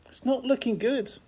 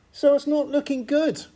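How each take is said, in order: First: Higher and softer mock dismay, dropped back; quiet echo. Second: Pitched well up, mock-dramatic dismay; mock gloom. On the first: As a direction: repeat it as a hushed rueful aside. Preacher repeats the bleak verdict. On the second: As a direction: play the doom for a laugh, high and theatrical. Preacher sums up the bleak situation.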